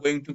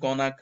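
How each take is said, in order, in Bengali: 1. দুটো শব্দই আলাদাভাবে পুরোপুরি বলা হয়। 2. শব্দ দুটো মিশে একটি সংক্ষিপ্ত শব্দ হয়ে যায়।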